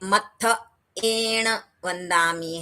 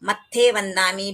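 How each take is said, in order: First: The first word is said with separate vowels, matthaena. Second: The first word is shortened to matthe. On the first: The speaker calls it right. "अंत में देखिए मत्थ एण वंदामी है" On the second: The speaker calls it wrong. "भी नहीं है"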